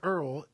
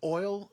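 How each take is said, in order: First: Oil is said with an 'er' vowel. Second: Oil is said with a standard 'oy' vowel.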